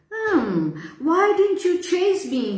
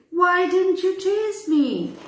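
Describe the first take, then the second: First: High timid question. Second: High, hesitant timid question. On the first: Boy timidly asks the lion why it didn't chase him. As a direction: ask meekly, afraid of the beast. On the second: Boy timidly asks the lion again, meekly. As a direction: ask it meekly, a scared boy. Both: Acted. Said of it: "he asked timidly".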